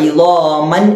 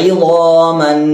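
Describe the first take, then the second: The two takes are said the same way.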